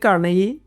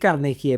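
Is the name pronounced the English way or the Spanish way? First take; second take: English; Spanish. First: The name is pronounced with American English sounds. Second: The name is pronounced with Spanish sounds. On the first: "pero es Del Carnegie, que es un gringo" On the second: "en español se podría decir Carnegie"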